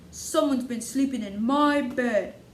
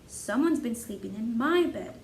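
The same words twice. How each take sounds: First: It is said in a great big voice. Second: It is said in a medium-sized voice. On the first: "in his great big voice" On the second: "in her medium-sized voice"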